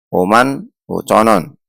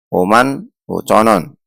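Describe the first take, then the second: First: The w sound is faint and blended in. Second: The w sound is faint and blended in.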